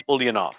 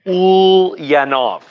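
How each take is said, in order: First: Said in the usual way. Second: Ulyanov stretched slow, higher and louder; drawn-out Russian name. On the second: Shown as a demonstration. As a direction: announce Ulyanov grandly, syllable by syllable. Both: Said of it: "The guy is named".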